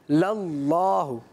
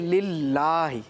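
First: The L sound is thick and heavy. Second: The L sound is thin and light. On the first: "زبر آئے گا تو موٹا پڑھیں گے" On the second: "اگر زیر آئے گا تو باریک پڑھیں گے"

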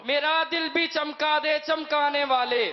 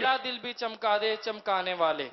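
First: It is said in a bold, forceful voice. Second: It is said in a normal voice.

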